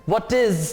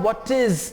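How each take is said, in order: Both takes have the same delivery.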